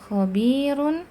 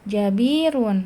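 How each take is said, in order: First: The first consonant is a rasping kh sound. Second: The first consonant is a j sound. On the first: The speaker calls it right. "Harusnya dibaca khobirun" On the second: The speaker calls it wrong. "tapi dibaca jadi jim"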